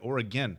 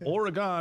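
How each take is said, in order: First: The name is said the local way. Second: The name is said as it is spelled. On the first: The speaker calls it right. "say I said it right" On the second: The speaker calls it wrong. "like how it's spelled"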